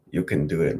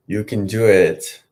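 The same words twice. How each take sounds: First: Said in the usual way. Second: Louder, slower, firm push to himself; firm self pep talk. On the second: Real, not acted. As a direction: coach yourself on, slow and firm. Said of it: "You can do it, [name]".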